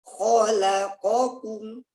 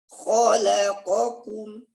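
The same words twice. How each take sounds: The two takes are said the same way.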